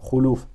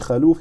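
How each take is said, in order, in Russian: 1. За первым согласным следует гласная u. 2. За первым согласным следует гласная a. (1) "а хулюф" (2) "не халюф"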